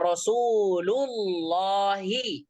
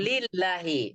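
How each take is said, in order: First: The vowel after 'Rasul' is a 'u'. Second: The vowel after 'Rasul' is an 'i'. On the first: The speaker calls it right. "maka kita baca Rasulullahi" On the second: The speaker calls it wrong.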